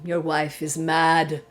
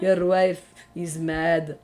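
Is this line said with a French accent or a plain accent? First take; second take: plain; French accent. First: It is said in the speaker's ordinary accent. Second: It is said with an imitated French accent.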